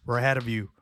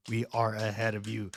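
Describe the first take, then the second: First: Said in the usual way. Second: "are" spelt out and leaned on, low; stress on are. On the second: Real, not acted. Telling a rival country who leads, stress on "are". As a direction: lean firmly on the word "are".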